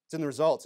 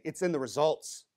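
First: Results carries the weight, in stays light; stress on results. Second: In pushed up with a rising tune, results light; stress on in. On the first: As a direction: land the line on results. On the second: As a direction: hit in, not results. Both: Shown as a demonstration. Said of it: "What am I saying?".

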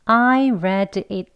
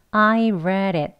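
First: I read it with a hard, separate D; unlinked careful form. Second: I read it linked with a tapped D; flap D. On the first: Teacher showing what not to do in conversation, unlinked words. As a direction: read and it kept apart, D fully sounded. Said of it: "하지 않고요". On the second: Teacher showing conversational pronunciation, flapped D. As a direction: read it run together, D as a light tap. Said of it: "여기 D를 flap D". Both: Shown as a demonstration.

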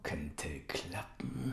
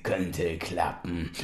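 First: Slow unvoiced whisper. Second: Said in the usual way. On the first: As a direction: breathe it slowly. Uncle whispers.

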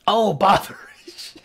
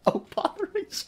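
First: Slow, drawn-out mock dismay; a lightly voiced fussy character; mock character exclamation. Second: Much higher and softer squeaky take; high soft comic exclamation; high, soft mock dismay. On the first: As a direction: stretch it like a fussy old character. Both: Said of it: "Oh, botheration!".

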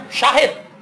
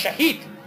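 First: Said in the usual way. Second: شہید said for شاہد, with a short first vowel and a long ee, much softer; foreigners' mispronunciation. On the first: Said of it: "گورے یہاں پر آتے ہیں، ہم انہیں کہتے ہیں شاہد". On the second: Retold or imitated. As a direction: imitate how a foreigner says شہید instead of شاہد. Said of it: "گورے یہاں پر آتے ہیں".

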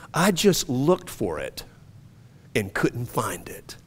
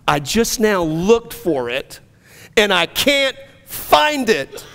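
First: Slow, soft, almost whispered; quiet wonder, barely breathing it; hushed disbelief. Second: Rising joy. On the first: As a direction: murmur it slowly, like checking inside yourself. Man quietly discovering freedom. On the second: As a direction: let the realization swell up. Same words, now rising joy. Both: Retold or imitated.

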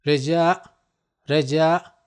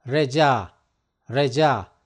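First: Reca, reca with the pitch rising at the end; rising tune. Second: Reca, reca with the pitch falling at the end; falling tune. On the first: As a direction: lift the end of reca like a question. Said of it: "teacher repeats word with rising tune". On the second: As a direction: settle reca down firmly at the close. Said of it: "teacher repeats word with falling tune". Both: Shown as a demonstration.

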